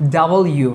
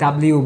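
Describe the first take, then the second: First: It is said as two clear parts, 'double you'. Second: It is said as one squeezed word, 'dabliu'. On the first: The speaker calls it right. "এইভাবে আমরা উচ্চারণ করব এই লেটারটাকে" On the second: The speaker calls it wrong. "অনেকে ডাব্লিউ বলি, এভাবে না"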